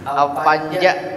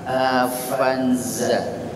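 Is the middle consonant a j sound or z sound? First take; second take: j sound; z sound. First: The middle consonant is a j sound. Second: The middle consonant is a z sound. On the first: The speaker calls it wrong. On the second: The speaker calls it right.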